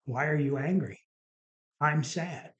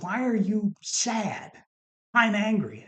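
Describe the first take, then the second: First: Understated imitation of a sad wife; retold sadness. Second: Exasperated husband, high and emphatic; slow incredulous question, then a louder indignant retort; retold anger. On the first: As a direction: answer back as the hurt wife, only a touch of sadness. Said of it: "crying and, you know, and sad". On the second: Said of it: "I am just angry beyond angry".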